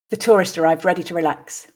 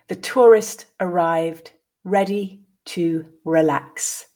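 First: The sentence is said at natural speed. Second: The sentence is said slowly. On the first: "at a more natural pace" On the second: "I will read it once slowly"

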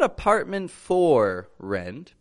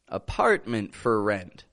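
First: The vowel in 'for' is a full vowel. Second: The vowel in 'for' is a reduced schwa. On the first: The speaker calls it wrong. "Not apartment for rent" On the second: The speaker calls it right.

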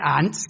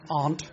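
First: It is said with a northern English accent. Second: It is said with a London accent.

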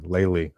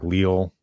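First: The name is pronounced like 'Lely'. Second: The name is pronounced like 'Leal'. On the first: The speaker calls it right. "Lely. Okay. I'll know for next time" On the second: The speaker calls it wrong. "I was always like fucking it up too. Like Leal, I was calling it"

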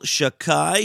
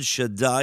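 First: The middle consonant is a k sound. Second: The middle consonant is a d sound. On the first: It is the informal form used outside prayer. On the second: It is the formal form used in prayer.

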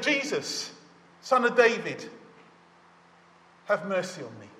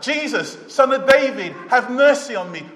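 First: It is said more quietly. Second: It is said more loudly.

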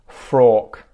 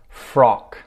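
First: The vowel is a longer 'or' sound. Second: The vowel is a short 'oh' sound. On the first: The speaker calls it wrong. "substitute in the or sound" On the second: The speaker calls it right. "five words with the oh sound"

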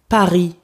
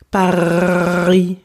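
First: The word is said at normal speed. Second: The word is said slowly and drawn out.

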